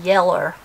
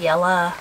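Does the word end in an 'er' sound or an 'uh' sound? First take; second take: er sound; uh sound. First: The word ends in an 'er' sound. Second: The word ends in an 'uh' sound. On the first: This is how some other people say it. "Some people say yeller. They put the ER" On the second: This is how the speaker says it. "but I say yella with an A"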